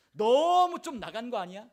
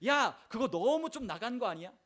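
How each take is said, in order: First: 너무 stretched long, high and very loud; exaggerated accusation. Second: Raised, mocking challenge with 너무 leaned on; needling accusation. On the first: Satan taunts the believer, with 너무 hugely exaggerated. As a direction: blow 너무 up into a drawn-out, scornful cry. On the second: Satan needles the believer, accusing, with 너무 emphasized. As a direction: put some weight on 너무, lengthening it a little. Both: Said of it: "라고 이야기를 하기 시작해요".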